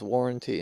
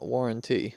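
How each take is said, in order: First: The final syllable is light and unstressed. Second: The final syllable is a full, stressed 'tea'. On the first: The speaker calls it right. "it was warranty" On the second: The speaker calls it wrong. "and not warranty"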